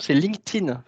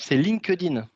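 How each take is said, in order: First: It is said with an English-style pronunciation. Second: It is said with a French-style pronunciation. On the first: This is the true pronunciation. The speaker calls it right. "La véritable prononciation" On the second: This is how most people say it. The speaker calls it wrong. "La prononciation la plus courante"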